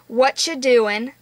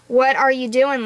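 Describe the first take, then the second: First: The words run together into a reduced form. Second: Each word is said fully and separately. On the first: A casual teenager is talking. "whatcha isn't really a proper word" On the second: It sounds too proper for a teenager. "it would be way more awkward if I said"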